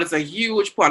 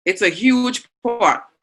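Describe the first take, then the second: First: Said in the usual way. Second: Huge stretched out and leaned on, said slowly; stress on huge. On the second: Shown as a demonstration. Teacher defines cauldron for the class, stressing huge. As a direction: press on huge to show the size. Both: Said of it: "Not just a pot".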